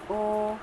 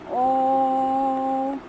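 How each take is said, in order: First: The vowel is held long but not extra long. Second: The vowel is held for an extra long time. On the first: "ये दीर्घ होते हैं" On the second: "ये आपका क्या हो गया? प्लुप्त हो गया।"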